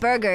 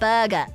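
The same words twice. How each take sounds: First: It is said with a plain English accent. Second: It is said with a Japanese-style accent. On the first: The listener cannot understand it. The speaker calls it wrong. "Burger is not understandable" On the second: The listener understands it. The speaker calls it right. "but burger understandable"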